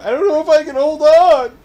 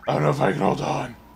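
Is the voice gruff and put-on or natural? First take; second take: natural; gruff. First: It is said in a natural, ordinary voice. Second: It is said in a deep, gruff put-on voice.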